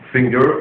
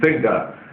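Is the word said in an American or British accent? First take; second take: American; British. First: The word is said with an American accent. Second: The word is said with a British accent. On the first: "American pronunciation" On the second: "English pronunciation"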